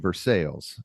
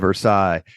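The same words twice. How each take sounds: First: It is said the local Indiana way. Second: It is said the standard, non-local way. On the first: "in Indiana, we also say Versailles" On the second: "instead of"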